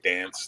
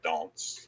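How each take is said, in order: First: The word has a North American flat vowel. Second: The word has a British broad vowel. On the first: "we say dance" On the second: "they say dance"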